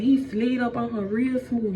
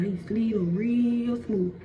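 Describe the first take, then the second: First: Said in the usual way. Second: Slow, stretched-out repeat; drawn-out smoothness. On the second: A narrator's reading. Storyteller repeating how the snake slid, drawn out. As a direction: draw out "real smooth" nice and long.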